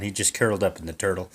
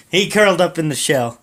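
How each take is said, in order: First: Said in the usual way. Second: "shell" fixed, said higher and louder; corrected with emphasis. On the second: Real, not acted. Narrator fixing his own slip, louder and higher. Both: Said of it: "Not the turtle".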